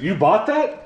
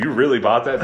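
First: Incredulous question leaping high at the end; condescending, sharply rising disbelief. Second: Softened, less pointed question; gently incredulous, evenly pitched question; milder disbelief. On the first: Real, not acted. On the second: Shown as a demonstration. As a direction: ask it with only mild surprise. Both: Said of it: "I said that very condescendingly".

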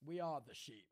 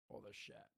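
First: Said in the usual way. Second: "shep" with a short e in place of "sheep"; short-vowel "shep". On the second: Pretend. Joking on the sheep team's name, "shep" with short e. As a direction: say "shep" to rhyme with "step", softly.

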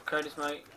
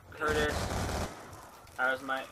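First: Said in the usual way. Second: Lightly put-on American accent. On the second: Shown as a demonstration. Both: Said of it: "American accent".

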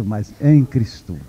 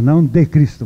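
First: "em" leaned on, slow and low; stress on em. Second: Said in the usual way. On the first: Shown as a demonstration. Preacher correcting "de" to "em", slow stress on "em". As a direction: land the weight on "em" in "em Cristo".

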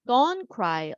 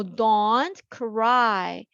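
First: Said in the usual way. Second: Very slow, drawn-out don't cry; slow model reading. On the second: Shown as a demonstration. Teacher modelling a comforting phrase, slow. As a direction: stretch it out for the students. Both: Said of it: "울지 마".

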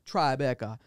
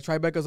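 First: "Tribeca" as a light island-accent impression; imitated Trinidadian accent. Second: Said in the usual way. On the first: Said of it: "He's like".

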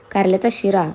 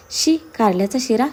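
First: Mildly frustrated end to a sarcastic list; frustrated grumbling. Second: Slow, drawn-out "शी" of disgust. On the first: A narrator's reading. Husband reeling off bitter-gourd dishes to wife, mildly frustrated. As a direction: grumble "कारल्याचा शिरा" as one more dish. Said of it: "फ्रस्ट्रेशनमध्ये बडबडत होता". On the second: Acted. Wife imagining bitter-gourd halwa, disgusted. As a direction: recoil from the very idea, in disbelief.

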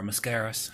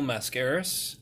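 First: Mascaras with a reduced first syllable; weak "muh" at the start of Mascaras; alternative pronunciation. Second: Mascaras with a full "mass" first syllable; alternative pronunciation. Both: Shown as a demonstration. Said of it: "however you wanna say it".

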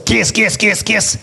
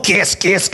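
First: Repeated with a light smoker's rasp; Péladeau's smoker's rasp. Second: Put-on lightly rasped old smoker's voice; a hint of an old smoker croaking it out; Péladeau's smoker's rasp. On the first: Retold or imitated. (voix rauque de vieux fumeur, à peine imitée) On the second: (voix de fumeur légèrement imitée) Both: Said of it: "avec une vieille voix de fumeur".

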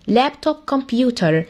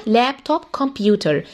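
Both takes have the same delivery.

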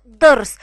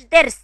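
First: ضرس with a heavy, loud ض, slowed; correct emphatic ḍ. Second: درس said with a plain light د, not ض; wrong soft d. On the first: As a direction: press the ض of ضرس from the throat. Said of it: "ما اسموش درس، اسمه ضرس". (نطق صحيح ضرس بضاد مفخمة وعالية) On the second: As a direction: show the mistaken thin د in درس. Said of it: "ما اسموش درس". (نطق خاطئ درس بدال خفيفة) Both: Shown as a demonstration.

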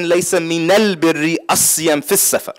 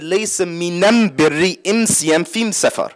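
First: "minal", "asiyam" and "fis" said with the standard al article, at an even pace; Qurayshi dialect Arabic. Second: "minam", "imsiyam" and "fim" said with am in place of al, slow and careful; Himyari dialect Arabic. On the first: The teacher showing how the Prophet's own Qurayshi dialect would sound, with al. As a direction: keep the usual al forms in "minal birri asiyam fis safar". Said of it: "in his own Qurayshi dialect".

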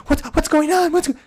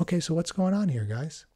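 First: Loud, high-pitched frantic questioning; worked-up, much too loud and high; over-excited energy. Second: Unhurried, low-key question to calm things. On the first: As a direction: burst in loudly with pitch sky-high. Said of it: "gets the excitement and the, the energy up". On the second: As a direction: ask calmly, easing down at the end. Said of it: "talk it out in a low voice". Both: Acted.

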